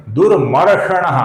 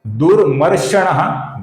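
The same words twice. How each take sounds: First: दुर्मर्षणः slow, with a retroflex ष clearly marked; correct pronunciation. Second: दुर्मर्षणः with the wrong sh sound; wrong pronunciation. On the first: Teacher modelling the correct Sanskrit pronunciation. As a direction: say दुर्मर्षणः slowly, crisp retroflex ष. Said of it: "ये सही उच्चारण है". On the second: Teacher showing the wrong Sanskrit pronunciation. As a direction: say दुर्मर्षणः with a plain s-like श. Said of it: "गलत उच्चारण है". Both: Shown as a demonstration.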